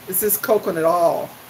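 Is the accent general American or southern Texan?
southern Texan. Oil is flattened to sound like all. "in Texas, if I recall correctly, what I struggled against saying"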